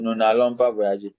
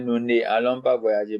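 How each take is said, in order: First: Ne loses its vowel and links to allons. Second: Ne is said in full before allons. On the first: The speaker calls it right. "it becomes what N apostrophe" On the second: The speaker calls it wrong. "we didn't say"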